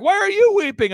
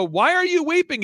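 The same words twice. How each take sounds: First: Loud, very high mock-tearful shout; mimicked emotional outcry. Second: High-pitched, drawn-up plea; retold question, pitched high with feeling; acted emotional questioning. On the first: Imitating the weeping client turning the question back, shouted high. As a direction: throw the question back, higher and louder. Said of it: "He's like". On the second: Asking his weeping client why, in an acted high voice. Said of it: "and he's weeping".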